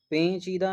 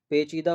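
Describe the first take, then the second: First: पेचीदा with a long, higher 'peeen'; wrong nasal vowel. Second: पेचीदा with a plain, unstretched 'pe'; correct oral vowel. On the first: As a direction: stretch and nasalise the start of पेचीदा. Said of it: "पेचीदा नहीं होता है". (पेचीदा को खींचकर 'पेंचीदा') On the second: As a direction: say pe-cheeda for पेचीदा, no nasal. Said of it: "पेचीदा होता है". (पेचीदा, बिना अनुनासिक 'पे') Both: Shown as a demonstration.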